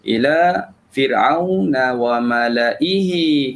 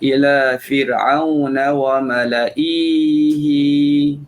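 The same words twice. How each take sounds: First: The vowel before the final syllable is kept short. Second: The vowel before the final syllable is drawn long. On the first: The speaker calls it right. "Jangan panjangkan hamzah" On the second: The speaker calls it wrong. "jadi dipanjangkan ihi, maka tu dah berlaku kesilapan"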